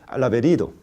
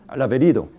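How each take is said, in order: Both takes have the same delivery.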